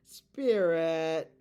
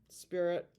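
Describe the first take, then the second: First: Loud summoning call. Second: Said in the usual way. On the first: Acted. Summoning the Spirit with a loud call. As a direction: call the Spirit loudly into the room.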